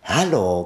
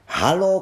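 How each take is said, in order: First: A level, plainer hello from the Mole; Haló at normal pitch, falling; Mole calling back. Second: A high, ringing call of greeting; Haló sung out high and bright by the Rat; Water Rat's hello. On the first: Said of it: "zvolal Krtek". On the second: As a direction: call Haló across the river, pitched high. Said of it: "řekla vodní krysa". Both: A narrator's reading.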